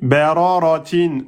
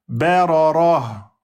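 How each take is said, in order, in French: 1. Le mot se termine par un son -in. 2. Le mot se termine sans aucun son n.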